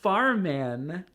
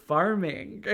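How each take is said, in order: First: Farmen, with the final G dropped as in farmin'; Irish cabbie dropping the G in farmen. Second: Farming, slow, with a clear final G. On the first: Retold or imitated. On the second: Shown as a demonstration. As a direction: say farming slowly, ending on the G. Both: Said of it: "farming without the G".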